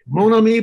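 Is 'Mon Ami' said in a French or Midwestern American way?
French. It is said with a French-like pronunciation.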